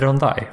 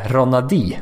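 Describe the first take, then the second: First: The name is said as Ron-dai. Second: The name is said as Ro-na-di. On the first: The speaker calls it right. "men han heter Rondai Hollis Jefferson" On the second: The speaker calls it wrong. "Som jag gärna vill säga Ronadi"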